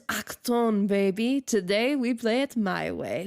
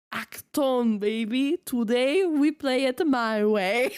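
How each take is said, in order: First: Lightly German-tinged game character quote; imitated German accent. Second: Slowed, hammed-up American-accented catchphrase; exaggerated American accent. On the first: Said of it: "he spoke with a German accent". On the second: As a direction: lay the American accent on thick, laughing. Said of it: "American accent intensifies".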